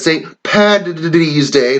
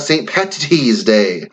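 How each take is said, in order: First: PATTY'S drawn out, d sound instead of t; Paddy's with a D. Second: Slow PATTY'S with a crisp, hard t; PATTY'S spoken slowly, sharp t sound. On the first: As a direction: say Patty's slowly as "Paddy's", voiced d in the middle. Shows right versus wrong spelling. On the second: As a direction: say Patty's with a clearly released t in the middle. Shows the wrong form after not. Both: Shown as a demonstration.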